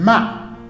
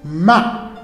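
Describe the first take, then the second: The two takes are said the same way.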